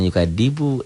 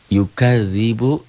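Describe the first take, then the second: First: The middle consonant is a plain d sound. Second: The middle consonant is a soft dh sound. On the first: The speaker calls it wrong. "jangan yukadibu" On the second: The speaker calls it right. "Ini zal gitu"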